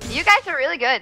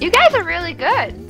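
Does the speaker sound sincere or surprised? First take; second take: sincere; surprised. First: The voice sounds sincere and matter-of-fact. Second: The voice sounds surprised and incredulous. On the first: The praise is meant genuinely. The speaker calls it right. "Let me try again" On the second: The praise seems unexpected. The speaker calls it wrong. "Why do you sound surprised?"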